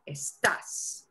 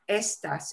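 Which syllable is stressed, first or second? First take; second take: second; first. First: The stress is on the second syllable. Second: The stress is on the first syllable. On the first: The speaker calls it right. "We punch the as part harder" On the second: The speaker calls it wrong. "it's not estas"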